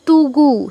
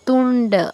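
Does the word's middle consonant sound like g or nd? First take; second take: g; nd. First: The middle consonant is a plain g sound. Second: The middle consonant is a retroflex nd sound. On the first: The speaker calls it wrong. "তুমি বলছো তুগু, তুগু নয়" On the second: The speaker calls it right. "মূর্ধন্য ড, তুন্ড"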